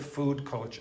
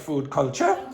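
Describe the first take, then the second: First: The pitch falls at the end of the phrase. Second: The pitch rises at the end of the phrase. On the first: It sounds like a statement. The speaker calls it right. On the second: It sounds like a question. The speaker calls it wrong.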